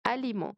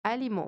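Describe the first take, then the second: The two takes are said the same way.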